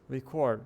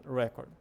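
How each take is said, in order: First: "record" as re-CORD, the verb; final-syllable stress. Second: "record" as REC-ord; first-syllable stress. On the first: Teacher contrasts verb with noun, "record" stressed on the last syllable. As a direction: push the weight onto the end of "record". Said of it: "o ênfase tá no final". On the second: Teacher sums up the noun, "record" stressed up front. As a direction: put the weight on the start of "record". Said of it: "a ideia é falar record". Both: Shown as a demonstration.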